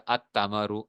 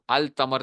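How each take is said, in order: First: التمرو said at-tamaru, lam silent; التمرو with the lam merged into the t; correct Arabic. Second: التمر said al-tamar with the lam heard; التمر as the mistake, lam spoken out; wrong version. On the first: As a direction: say التمرو with a doubled t and no l. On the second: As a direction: say التمر with a clear l before the t. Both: Shown as a demonstration. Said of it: "التمر نہیں کہنا".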